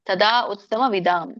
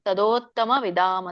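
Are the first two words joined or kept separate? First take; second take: separate; joined. First: Tada and uttama are said as separate words. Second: Tada and uttama are merged into tadottama. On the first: The speaker calls it wrong. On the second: The speaker calls it right.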